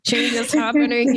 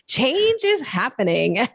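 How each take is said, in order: First: It sounds reluctant and dreading. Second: It sounds upbeat and excited. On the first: The change feels unwelcome and uncomfortable. The speaker calls it wrong. "part of me wants to be like, oh" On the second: The change is a welcome, positive thing. The speaker calls it right. "as if it's like a super exciting, positive thing"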